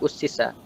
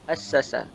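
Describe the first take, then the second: First: It begins with u and has i before s. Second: It begins with a and has a before s. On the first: The verb is passive. "baca dengan dhammah hamzah" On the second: The verb is active. "baca dengan fathah hamzah dan huruf sin"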